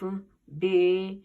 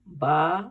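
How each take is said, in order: First: The name ends in an 'ay' vowel. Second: The name ends in an 'aa' vowel. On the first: This is the Persian way used in Urdu. The speaker calls it wrong. "ये तरीका जो है ये बतौर फारसी तरीका है ... इसको मजहूल तरीका कहा जाता है" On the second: This is the Arabic way used in the Quran. The speaker calls it right. "सही तरीके से अरबी के तलफ़ुज़ के साथ"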